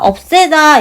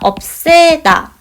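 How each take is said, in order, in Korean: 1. 가운데 ㅅ 소리는 평음이고 뒤로 연음돼요. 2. 가운데 ㅅ 소리는 경음이고 겹쳐서 나요. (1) "연음이 돼서 우리가 없애다 이렇게 해도 됩니다" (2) "쌍시옷으로 교체가 돼서 발음을 합니다"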